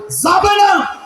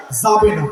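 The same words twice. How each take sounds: First: Much higher, shouted যাবে না; shouted repeat. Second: Said in the usual way. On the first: Real, not acted. Preacher forbidding women to go out, high shout.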